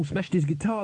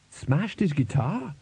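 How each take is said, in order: First: Said in the usual way. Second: "Smashed his guitar" slowed, swooping up at the end; incredulous echo question. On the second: Acted. Bandmate querying Crash's boast, "Smashed his guitar" as a rising question. Listener queries what was just said.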